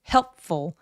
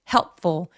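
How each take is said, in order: The two takes are said the same way.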